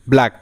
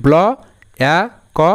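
First: Said in the usual way. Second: "ব্ল, অ্যা, ক" as three separate sounds; sounding out. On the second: Shown as a demonstration. Teacher shows learners a word's sounds, segmented "ব্ল, অ্যা, ক". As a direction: say "ব্ল", "অ্যা", "ক" one by one with pauses. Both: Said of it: "এই যে".

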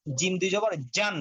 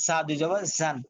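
First: "জান" with a hard, voiced j as in jam; vibrating jim. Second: "জান" with a thin z sound; whistling za. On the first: Teacher contrasting jim with za, hard "জান". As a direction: say "জান" with a firm buzzing stop. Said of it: "vibration আছে". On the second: Teacher contrasting za with jim, thin "জান". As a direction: say "জান" as zan, without the hard j stop. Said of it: "কিন্তু vibration নাই". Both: Shown as a demonstration.

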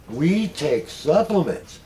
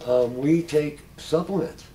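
First: Slow, emphatic we take supplements; stress on we. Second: Said in the usual way. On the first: Real, not acted. Stressing to the group that they really take supplements. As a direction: lean on "we take supplements" slowly. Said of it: "And believe me". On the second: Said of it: "believe me".

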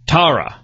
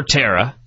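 First: Tara said TAH-ruh; first pronunciation. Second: Tara said TERR-uh; alternative pronunciation. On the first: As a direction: say Tara with an open "ah", as in car. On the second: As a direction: say Tara to rhyme with Sarah. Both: Shown as a demonstration. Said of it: "however you pronounce it".

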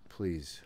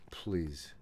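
No difference in how they are said.

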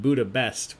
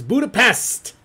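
First: Said in the usual way. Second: Budapest punched loud and high; loud, higher-pitched burst on Budapest; emphatic exclamation. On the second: Real, not acted. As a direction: belt out "Budapest" as the big reveal. Exclaims the correct answer.

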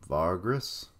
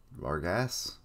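First: Reader tries Vargas as VAR-gruss, questioning; unsure name pronunciation. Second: Reader tries Vargas as var-GASS, questioning; second pronunciation attempt. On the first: Reader puzzles over a character's name, Vargas as VAR-gruss. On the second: Reader retries a character's name, Vargas as var-GASS. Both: Real, not acted. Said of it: "can't even remember how it was pronounced".

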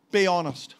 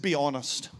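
First: Be honest, pushed out louder and insistent; louder emphatic repeat. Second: Said in the usual way. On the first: Shown as a demonstration. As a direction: press "Be honest" hard, loud. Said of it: "He said, Be honest".

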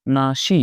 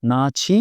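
First: না সি with a hissing "sh"; s/sh sound. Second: না ছি with an aspirated "chh"; chh sound. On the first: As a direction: say না সি as "na-shi", in separate syllables. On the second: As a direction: say না ছি as "na-chhi", in separate syllables. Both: Shown as a demonstration. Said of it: "স এর mix করা".

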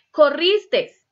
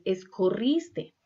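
First: "Corristes" high and loud with the final s; wrong form. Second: Said in the usual way. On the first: Shown as a demonstration. Teacher mocking the wrong verb, high and loud. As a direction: stress the extra s in "Corristes". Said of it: "no es corristes".

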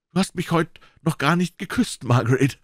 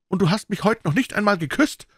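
First: Louder, raised doctor voice demanding a kiss. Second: Angry shout. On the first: Doctor loudly reproaching his fiancée at dinner, raised voice. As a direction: call it across the table, higher pitched. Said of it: "sagte er laut". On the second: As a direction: hurl the reproach at her. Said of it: "schrie er". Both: A narrator's reading.

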